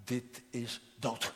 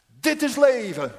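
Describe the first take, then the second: First: Grave verdict. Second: Much higher and much louder cry of joy; elated cry. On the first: Father answers son's boast gravely. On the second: Prodigal son exulting over his new life, ecstatic shout. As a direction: shout it out in rapture. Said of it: "riep hij opgetogen uit". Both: Retold or imitated.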